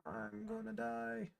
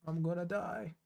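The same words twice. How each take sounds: First: Higher, softer and slow, like a fading last breath; mock dying wail. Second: Said in the usual way. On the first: Streamer hams up his doom to chat, slow high and soft. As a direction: ham up a tragic death moan. Repeats the line as a dramatic take. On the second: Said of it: "I'm gonna die (repeated take)".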